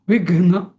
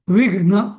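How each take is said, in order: No difference in how they are said.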